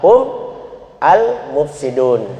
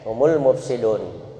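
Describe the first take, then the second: First: Hum ends without a vowel, then a separate al. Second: Hum runs straight into the next word as humul. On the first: "Kalau dipisah itu tetap dibaca sukun" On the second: "Tapi kalau disambung humul mufsidun"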